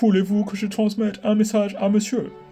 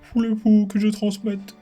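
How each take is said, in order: First: It is said in a put-on English accent. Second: It is said in his plain voice.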